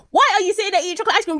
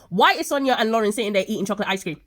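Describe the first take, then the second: First: High, fast, loud outburst; exasperated scolding. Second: Said in the usual way. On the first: Acted. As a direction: rattle it off in outraged disbelief. Pauses, then scolds the characters directly.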